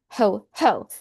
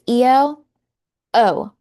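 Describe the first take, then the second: First: The word starts with an audible H sound. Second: The word starts with a vowel, no H sound. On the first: The speaker calls it wrong. "not ho ho, like Santa" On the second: The speaker calls it right. "That's E O O"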